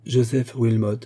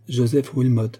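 First: JOSEPH WILMOT repeated a touch more slowly; slow repetition. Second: Said in the usual way. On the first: A narrator's reading. (répéter « Joseph Wilmot » un peu plus lentement) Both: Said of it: "répéta Margaret lentement".

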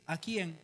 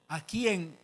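First: Said in the usual way. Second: Louder "aquí en", left hanging; acted phone answer. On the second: Telling a friend where he is, louder cut-off answer. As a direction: start answering firmly, then break off. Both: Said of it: "así dije".

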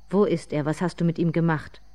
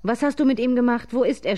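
First: Restrained narrated call; understated demand from a distance; calling from afar. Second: Raised, higher, louder voice; loud, high-pitched narrated shout; screamed demand. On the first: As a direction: call out with mild urgency. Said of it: "rief sie ihr schon von weitem entgegen". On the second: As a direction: cry out the accusation. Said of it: "schrie die Großmutter". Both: A narrator's reading.

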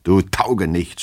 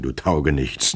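First: Restrained narrated yell of abuse; angry yelling. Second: Mild, smiling mock insult; affectionate chiding. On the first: Master yelling at his drunken servant, angry. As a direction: lash out, without full volume. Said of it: "schrie Herr Goljetkin ihn an". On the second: Master smiling at his tipsy servant, fond chiding. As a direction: say the insult fondly, without force. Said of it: "lächelte ihm zu". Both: A narrator's reading.

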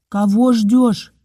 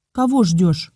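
First: Slow, emphatic call of кого; doctor shouting. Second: Said in the usual way. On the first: A narrator's reading. Doctor shouts at the mother, slow and emphatic. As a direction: shout it slowly to rouse her. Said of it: "крикнул доктор". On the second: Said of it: "спросил".

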